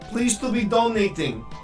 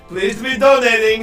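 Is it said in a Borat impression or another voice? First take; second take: another voice; Borat. First: It is said without a Borat impression. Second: It is said in a Borat impression.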